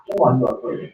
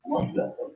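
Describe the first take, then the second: First: Said in the usual way. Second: Whispered, much softer repeat. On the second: Real, not acted. Preacher pressing the listener, whispering the question.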